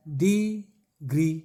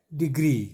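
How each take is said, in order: First: degree very slow, DEEE, pause, GREE; broken into syllables. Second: Said in the usual way. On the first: Shown as a demonstration. Teacher breaking up degree for students, slow stretched syllables. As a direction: split degree into two long beats. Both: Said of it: "तोड़िए पहले".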